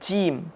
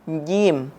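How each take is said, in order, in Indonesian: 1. Konsonan pertama diucapkan dengan napas yang keluar. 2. Konsonan pertama diucapkan tanpa napas yang keluar. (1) "bukan jim ... menyisahkan nafas" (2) "sekali lagi jim"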